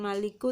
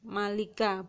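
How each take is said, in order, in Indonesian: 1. Kata ini berakhir dengan vokal 'u'. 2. Kata ini berakhir dengan vokal 'a'. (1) "bukan maliku" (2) "harus dibaca fathah"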